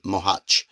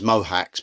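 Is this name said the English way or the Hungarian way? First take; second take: Hungarian; English. First: The name is said the native Hungarian way. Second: The name is said the usual English way. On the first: "the Hungarians pronounce it Mohuch" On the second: "in English people pronounce it as Mohacs"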